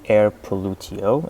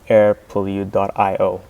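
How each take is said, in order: First: The name ends as one word, pollutio. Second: The name ends with pollute, then dot io. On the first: The speaker calls it wrong. "inspired from the Latin uh, pronunciation of pollution" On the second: The speaker calls it right. "actually, it's pronounced"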